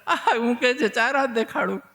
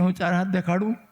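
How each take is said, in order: First: Higher pitched, amused repeat of a question; mock chuckling echo. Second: Put-on child's innocent offer. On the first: Old sage reacts to child's four-arm offer, chuckling echo. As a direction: echo it with a laugh, falling at the end. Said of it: "ગરગાચાર્યજી ખગડ્યા". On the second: Child Krishna offers mother to show four arms, innocent question. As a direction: ask lightly in the usual pitch, lifting at the end. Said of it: "Kanaiya કે".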